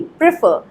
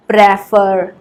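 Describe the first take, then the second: First: प्रेफर as "pri-FUR", short i first and stress at the end; correct pronunciation. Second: प्रेफर as "PREH-far", open e in a drawn-out first syllable; mispronunciation. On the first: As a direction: say प्रेफर quickly as "pri-FUR", higher, with a light first syllable. (प्रेफर का सही उच्चारण "प्रिफ़र", पहला स्वर छोटी इ) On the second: (प्रेफर का गलत उच्चारण, खुले ए के साथ "प्रे-फर") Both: Shown as a demonstration. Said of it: "प्रेफर नहीं, प्रेफर".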